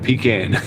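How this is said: It is said the Southern way. The speaker calls it right. "It's it's pecan"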